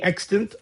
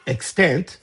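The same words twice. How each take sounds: First: "extant" stressed on the first syllable, EX-tint; speaker's usual pronunciation. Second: "extant" stressed on the second syllable, ex-TANT; alternative pronunciation. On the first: Teacher reading out the rule to students, "extant" as EX-tint. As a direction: say "extant" as EX-tint, second vowel reduced. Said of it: "I always say". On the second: Teacher giving the form some people prefer, "extant" as ex-TANT. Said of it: "some people prefer". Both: Shown as a demonstration.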